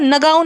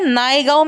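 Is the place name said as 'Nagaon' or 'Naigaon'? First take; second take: Nagaon; Naigaon. First: The name is said as two syllables, Na-gaon. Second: The name is said with an 'ai' sound, Nai-gaon. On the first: The speaker calls it wrong. "अब नगाँव जो है वो नगाँव नहीं है" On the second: The speaker calls it right. "जगह को सही से प्रोनाउंस किया"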